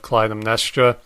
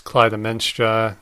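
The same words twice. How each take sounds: First: The middle is said as 'nes', not 'men'. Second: The middle sounds like 'men', as in menstruation. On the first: The speaker calls it right. "instead of Clytemnestra" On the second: The speaker calls it wrong. "I guess I've been mispronouncing it as Clytemnestra"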